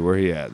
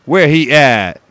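First: Said in the usual way. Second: Higher, louder mock street voice, drawn out; playful put-on street voice. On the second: Shown as a demonstration. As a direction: ham up a street-tough voice.

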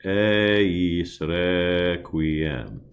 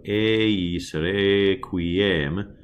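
First: "eis requiem" slow with open E, as in "bed"; slow open E demo; open E vowels. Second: "eis requiem" with a closed E, as in French é; closed E contrast. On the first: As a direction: model the right open vowel again. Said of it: "what we call open". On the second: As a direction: show the wrong, closed vowel for contrast. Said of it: "as opposed to". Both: Shown as a demonstration.

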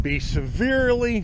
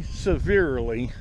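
First: Severely said high and loud; stress on severely. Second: Said in the usual way. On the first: Real, not acted. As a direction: raise the voice on severely. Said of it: "repeats severely for emphasis". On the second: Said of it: "repeat of severely, plain".

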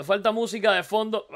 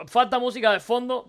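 First: Said in the usual way. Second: "Falta" pushed higher and louder; insistent repeat. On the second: Real, not acted. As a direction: hammer the point home.

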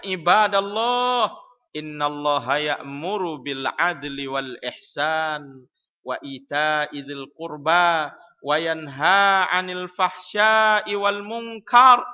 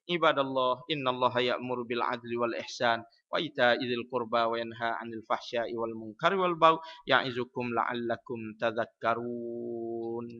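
First: Slow, drawn-out khutbah chant, swelling loud on the long vowels; sung, intone it grandly, stretching each phrase; sung, with intonation. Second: Low, even recitation running straight through; without intonation. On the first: Khatib closing the khutbah with the verse, intoned chant. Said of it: "Atau jenis ada intonasi". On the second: Khatib in a mosque with no intonation, plain low reading. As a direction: read the verse on one low note, drawing out only the last word. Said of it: "Kalau masjid tak ada intonasi". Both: Shown as a demonstration.

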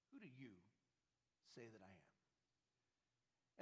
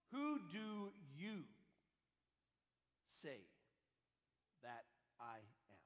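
First: Much softer, slow and low; hushed repeat. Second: Drawn out word by word; slow, weighty question. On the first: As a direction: drop to a near hush, slowly. Repeated quietly, almost hushed. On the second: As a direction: let each word hang, slowly. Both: Acted.

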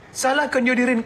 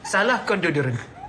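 First: "Salahkan deodorant" repeated higher and louder, mocking; mock indignant "Salahkan deodorant"; emphatic repeat. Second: Said in the usual way. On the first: Shown as a demonstration. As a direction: throw "Salahkan" back at them with mock outrage.

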